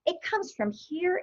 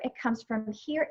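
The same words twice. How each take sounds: First: "here" lifted higher and slowed down; stress on here. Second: "here" said softer and slowly, sinking inward; soft stress on here. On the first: Explaining where creativity comes from, a raised, slow "here". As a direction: point to it by raising "here". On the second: Explaining where creativity comes from, a hushed, slow "here". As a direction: let "here" drop quiet and slow. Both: Shown as a demonstration. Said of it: "It doesn't come from".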